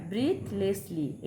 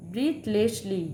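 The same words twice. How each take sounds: First: Breathlessly drawn out very slowly, each syllable apart; slow syllable demo. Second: Said in the usual way. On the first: Shown as a demonstration. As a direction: stretch breathlessly into three slow beats. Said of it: "এটা তিনবার উচ্চারণ হচ্ছে". (breathlessly খুব ধীরে তিন ভাগে) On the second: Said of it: "দেখো এটা ট্রাই".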